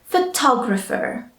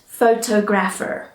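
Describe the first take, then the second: First: The middle syllable 'tog' is stressed. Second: It is split into 'photo' plus 'grapher'. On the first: The speaker calls it right. "the tog in the middle of the word is one of our syllables" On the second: The speaker calls it wrong. "not photographer"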